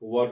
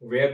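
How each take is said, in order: First: The vowel sounds like the one in 'fur'. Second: The vowel sounds like the one in 'wear'. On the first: The speaker calls it right. "इसका उच्चारण वर" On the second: The speaker calls it wrong. "वेयर नहीं"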